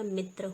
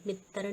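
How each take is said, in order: First: मित्र said as "mitra"; correct pronunciation. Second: मित्र said as "mit-tar"; wrong pronunciation. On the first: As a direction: keep tr together in मित्र, mitra. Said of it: "होता है". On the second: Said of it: "नहीं होता". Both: Shown as a demonstration.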